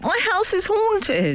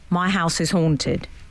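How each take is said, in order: First: It is said in a dramatic, theatrical tone. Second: It is read out in a plain voice.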